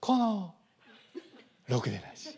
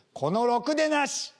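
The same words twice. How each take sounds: First: Morimoto Leo style. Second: A bit louder, slow mock yell; mock angry insult. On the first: Retold or imitated. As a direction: say the insult like a soothing lullaby. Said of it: "森本レオ風だと". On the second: Spouse cursing their partner, mock angry shout. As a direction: hurl the insult at your spouse. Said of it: "相手を大声で罵る".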